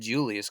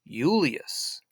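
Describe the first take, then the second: First: It begins with a J sound. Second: It begins with a Y sound. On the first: This is the modern way of saying the name. "he wouldn't have said Julius because there was no J sound" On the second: This is how the man himself would have said it. "he would have pronounced it like with a U"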